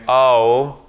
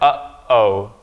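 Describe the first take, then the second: First: The two vowels run together without a break. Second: The vowels are split by a sharp glottal stop. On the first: The speaker calls it wrong. "you're not combining these two vowels here and saying" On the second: The speaker calls it right. "There's a stop in the middle"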